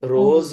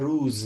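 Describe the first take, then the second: First: The vowel sounds like 'oh', as in roz. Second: The vowel sounds like 'oo', as in ruz. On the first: This is the Urdu pronunciation. "बोलते हैं रोज" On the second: This is the Persian pronunciation. "और फारसी में होता है रूज"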